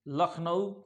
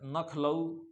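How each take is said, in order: First: The word begins with l, with n in the middle. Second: The word begins with n, with l in the middle. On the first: This is the pure form of the word. The speaker calls it right. "ये शुद्ध शब्द है" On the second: This is how common people say it. The speaker calls it wrong. "ये गलत है"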